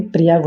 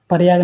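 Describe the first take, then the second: First: Said in the usual way. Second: प्रयाग as "paryaag", vowel before r; mispronunciation. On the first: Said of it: "प्रयाग होता है". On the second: Shown as a demonstration. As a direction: split the opening pr of प्रयाग into par. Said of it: "प्रयाग नहीं". (प्रयाग को 'परयाग' बोलकर)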